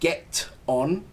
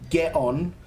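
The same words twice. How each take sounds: First: The T at the end of get is pronounced. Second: The T at the end of get is dropped. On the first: "Instead of saying get on" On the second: "rather than pronouncing the T"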